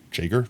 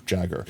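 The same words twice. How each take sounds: First: Jager said as JAY-ger, long A like the German word; JAY-ger with a questioning lift; wrong pronunciation. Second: Firm JAG-er with a falling close; corrected pronunciation. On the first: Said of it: "I don't know why I keep saying [name]". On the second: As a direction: Jagger with the flat short A, settling it. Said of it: "I know it's [name]". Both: Shown as a demonstration.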